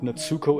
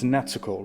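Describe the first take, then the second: First: The middle u sound is fully pronounced. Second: The middle u sound is very short. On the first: The speaker calls it wrong. "it's not Natsuko" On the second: The speaker calls it right. "with the very short U"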